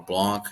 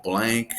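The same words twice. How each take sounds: First: "Blanc" with an open "ah" vowel; French-style reading. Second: "Blank" with the short A of "bank"; English reading. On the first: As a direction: say "Blanc" roughly as "blonk". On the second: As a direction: say "Blank" to rhyme with "thank". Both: Shown as a demonstration. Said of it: "or Blanc".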